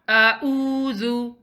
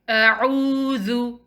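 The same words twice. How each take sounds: First: A plain hamza stop follows the opening hamza. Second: A throaty ain follows the opening hamza. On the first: The speaker calls it wrong. "It's not a'udhu" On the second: The speaker calls it right. "the correct pronunciation of this word is a'udhu"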